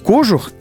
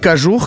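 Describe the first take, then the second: First: The stress is on the first syllable. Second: The stress is on the second syllable. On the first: The speaker calls it wrong. "как все, в общем-то, привыкли и многие думают ошибочно" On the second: The speaker calls it right. "как говорит уважаемый телеканал"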